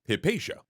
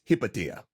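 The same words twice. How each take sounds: First: The name is said with a Latin pronunciation. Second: The name is said with a Greek pronunciation. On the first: "we'll be using the Latin pronunciation of Hypatia" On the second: "but in Greek, it's Hypatia"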